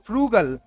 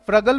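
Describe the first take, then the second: First: The first vowel is a long 'oo' sound. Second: The first vowel is a short 'uh' sound. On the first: The speaker calls it right. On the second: The speaker calls it wrong. "फ्रगल मत बोलना इसको"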